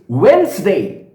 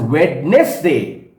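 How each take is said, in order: First: The word is shortened, with letters left silent. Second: Every written letter is sounded out. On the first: The speaker calls it right. "the correct and the appropriate pronunciation" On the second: The speaker calls it wrong. "we have been pronouncing this word W E D N E S and D A Y as Wednesday"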